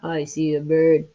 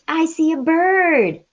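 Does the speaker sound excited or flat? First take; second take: flat; excited. First: It is said flatly, without excitement. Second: It is said with lively, excited emphasis. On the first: The speaker calls it wrong. "It's not" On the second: The speaker calls it right. "Good, very excited"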